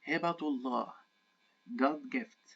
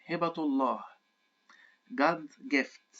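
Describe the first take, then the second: The two takes are said the same way.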